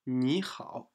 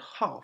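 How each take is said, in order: First: The word 好 dips low, then rises. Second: The word 好 falls sharply from high to low. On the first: It means good, as in hello. "in 你好, that's the third tone" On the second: It means to like. "fourth tone"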